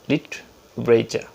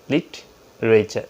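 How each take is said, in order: The two takes are said the same way.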